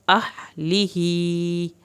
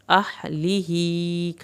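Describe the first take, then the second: First: Slow recitation; ha from the throat. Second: "اہلہ" very slow with the final hi stretched; slow recitation; long standing kasra. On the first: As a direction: push the ha of "اہلہ" from the throat. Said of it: "ہا کو آپ نے اندر سے نکالنا ہے". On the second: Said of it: "کھڑی زیر کھینچ کے پڑھنی ہے". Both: Shown as a demonstration.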